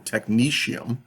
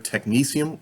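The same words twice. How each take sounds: First: The middle consonant is an SH sound. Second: The middle consonant is an S sound. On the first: "or an S H sound" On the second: "either an S sound"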